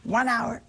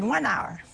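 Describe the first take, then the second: First: "One hour?" asked back in mild disbelief, rising; incredulous echo. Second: Said in the usual way. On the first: Retold or imitated. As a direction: echo it as a doubtful question. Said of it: "the sisters echo in disbelief". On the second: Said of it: "I said".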